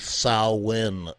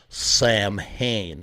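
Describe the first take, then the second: First: The name begins with a 'sow' sound. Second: The name begins with a 'sam' sound. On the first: "It's the sow like a cow and then in" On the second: "It's not Sam Hain"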